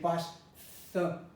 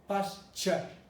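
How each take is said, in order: First: The middle sound is an interdental 'th'. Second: The middle sound is a palatal 'ch'. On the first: The speaker calls it wrong. "Instead of saying pas th, pas th, which is interdendal" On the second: The speaker calls it right. "This is called uh, palatalization"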